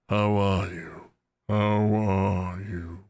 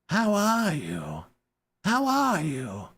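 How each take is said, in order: First: It is said in a young dragon voice. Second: It is said in a put-on goblin voice.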